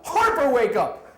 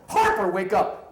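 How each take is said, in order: First: Very high, very loud yell; louder wake-up yell. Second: Loud, raised-pitch shout; shouted wake-up call. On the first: Manager trying harder to wake a drunken colleague, full yell. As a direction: escalate to a full-blast acted holler. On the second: Manager slapping a passed-out colleague awake, first shout. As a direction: yell to rouse someone passed out. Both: Retold or imitated.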